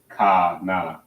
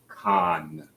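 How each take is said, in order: First: It is said as two separate syllables. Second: It is said as one joined syllable. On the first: The speaker calls it wrong. "you don't pronounce it as ka na" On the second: The speaker calls it right. "because it connects. So it's con"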